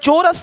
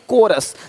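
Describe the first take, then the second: First: The word begins with a ch sound. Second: The word begins with a k sound. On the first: The speaker calls it wrong. "चोरस नहीं" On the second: The speaker calls it right.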